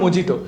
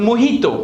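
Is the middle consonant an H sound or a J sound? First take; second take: J sound; H sound. First: The middle consonant is a J sound. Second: The middle consonant is an H sound. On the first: The speaker calls it wrong. "It's not a mojito" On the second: The speaker calls it right. "It's a mojito"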